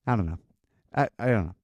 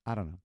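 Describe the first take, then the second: First: Low, flat shrug of an answer; mumbled teen reply. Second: Low, soft, shrugging mumble; mumbled teen reply. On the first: Son shrugging off his mom's questions, low mumble. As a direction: mumble it like you have no clue. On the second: Son mumbling back to his mom, low and quiet. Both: Retold or imitated.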